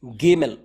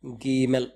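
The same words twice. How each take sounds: First: గీమెల్ said firmly as "gee-mel"; letter name gimel. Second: Said in the usual way. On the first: Shown as a demonstration. Teacher announces the new letter to the class. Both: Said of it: "గీమెల్ ఎలా ఉంటుంది".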